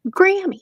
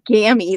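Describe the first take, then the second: First: The word is said with an R sound. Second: The word is said without an R sound. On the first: The speaker calls it right. "There's an R in it" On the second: The speaker calls it wrong. "why does he keep saying Gammy?"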